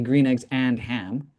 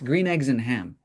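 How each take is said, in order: First: The word 'and' is said fully and separately. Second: The word 'and' is reduced and run together. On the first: It names separate items: green eggs, and ham. "it sounds kind of separate when you say it that way" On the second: It names one thing, the book title. "We bring it together. And so we reduce the and"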